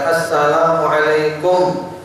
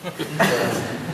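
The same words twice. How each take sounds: First: It is said loudly and clearly. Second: It is said quietly, barely audible.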